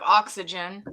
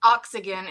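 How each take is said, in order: First: Said in the usual way. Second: "oxygen" said wrongly with a hard g, ox-i-gun; mom's botched "oxygen", g not j; mother's mispronunciation. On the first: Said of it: "instead of oxygen". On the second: Retold or imitated. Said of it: "she could never pronounce medical stuff".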